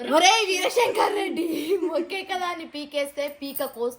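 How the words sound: It is said angrily.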